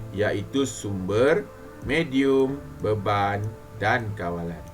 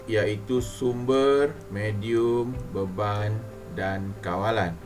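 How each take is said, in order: The two takes are said the same way.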